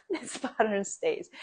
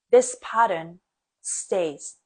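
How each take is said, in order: First: Softer, chuckling through "This pattern stays"; laughing repeat. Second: "this" punched louder, then "stays" falling; stress on this. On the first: Echoing her own point to viewers, laughing softly. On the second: Teacher stressing "this" to her viewers. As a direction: hit "this" hard, let "pattern stays" drop. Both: Shown as a demonstration.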